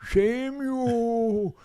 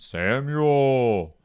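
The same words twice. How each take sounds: First: It is said in a thin, old man's voice. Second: It is said in a deep, booming voice. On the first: "maybe God sounds like an old man" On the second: "Why do we think that God has a deep voice?"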